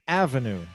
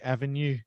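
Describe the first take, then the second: First: The stress is on the first syllable. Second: The stress is on the last syllable. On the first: The speaker calls it right. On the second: The speaker calls it wrong.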